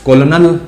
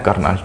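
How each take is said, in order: First: It is said as 'ko-lo-nel'. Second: It is said as 'kur-nal'. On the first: This is how the word is written. "लिखा जाता है" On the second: This is how the word is actually spoken. "बोला जाता है"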